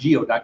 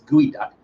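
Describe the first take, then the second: First: The word begins with the sounds 'gee-oh'. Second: The word begins with the sounds 'gooey'. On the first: The speaker calls it wrong. "It's it's not geoduck" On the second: The speaker calls it right. "It's gooey duck"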